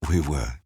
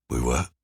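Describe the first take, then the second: First: "We were" stressed on "We", falling firmly; firm falling tune. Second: "We were?" with rising tune, feigning surprise; questioning tune. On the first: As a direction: land "We were" down, insisting. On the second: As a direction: lift the end of "We were?" as a question. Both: A narrator's reading. Feigned question then firm reply.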